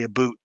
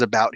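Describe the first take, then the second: First: "a boot" said as two words, with a long "oo" like the word boot; the Canadian "a boot" for "about", said as a boot. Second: Said in the usual way. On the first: Shown as a demonstration. Explaining to viewers how some Canadians say "a boot". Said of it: "they might say a boot". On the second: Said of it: "Now everybody says about here".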